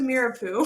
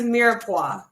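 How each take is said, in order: First: The last syllable sounds like 'poo'. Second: The last syllable sounds like 'pwah'. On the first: The speaker calls it wrong. "I used to call it the mirepoix poo" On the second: The speaker calls it right. "Mirepoix is how you pronounce it"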